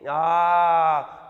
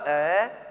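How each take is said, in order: First: The vowel is drawn out for a long time. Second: The vowel is said very briefly. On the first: "प्लुत में" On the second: "रेस्व"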